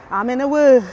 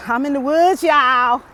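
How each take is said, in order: First: Excited shout. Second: Loud, higher call to the viewers; excited shout. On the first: Repeats the shout. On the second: Hiker calling out to viewers that she's in the woods, loud and excited. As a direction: announce it to everyone. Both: Real, not acted.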